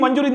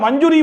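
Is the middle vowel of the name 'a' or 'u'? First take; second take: u; u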